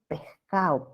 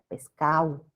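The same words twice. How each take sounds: First: The s sounds like a soft breathy h. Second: The d sound is dropped in quick speech. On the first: "debilitamiento de ese como una J suave" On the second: "dicen en el habla rápida pescado"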